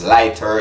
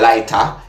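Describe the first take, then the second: First: It is said with a standard English accent. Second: It is said with a Jamaican accent. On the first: "in standard English, it's lighter" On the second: "Jamaicans will say lighter"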